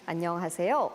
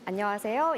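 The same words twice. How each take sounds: First: The pitch rises sharply on the last part. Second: The pitch stays fairly level at the end. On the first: It sounds foreign and awkward to Seoul listeners. The speaker calls it wrong. "급격하게 끝부분만 올린다거나" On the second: It sounds like standard Seoul speech. The speaker calls it right. "서울 사투리의 기준으로 보았을 때는 안녕하세요 이렇게"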